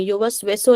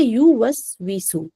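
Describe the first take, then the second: First: युवस्विसु said as "yowas-weso"; wrong vowels. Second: युवस्विसु slowly, said "yuwas-wisu"; correct damma and kasra. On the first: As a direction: open युवस्विसु to "o" and "e". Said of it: "युवस्विसु नहीं पढ़ेंगे". (युवस्विसु, ओ और ए की आवाज़ से) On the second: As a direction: round "yu" and "su" in युवस्विसु, thin "wi". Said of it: "बिल्कुल ऊ की आवाज". (युवस्विसु, धीरे, पूरी ऊ की आवाज़) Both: Shown as a demonstration.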